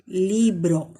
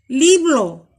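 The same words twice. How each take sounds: First: Said in the usual way. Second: "Libro" mispronounced as "liblo", L for R; assimilated sound. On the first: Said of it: "en lugar de decir". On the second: Shown as a demonstration. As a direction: demonstrate the child's error, a second L in "Libro". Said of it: "en lugar de decir libro".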